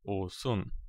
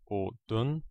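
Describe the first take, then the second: First: The middle consonant is an s sound. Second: The middle consonant is a d sound. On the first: The speaker calls it right. "but o-sun" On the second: The speaker calls it wrong. "the pronunciation is not o-dun"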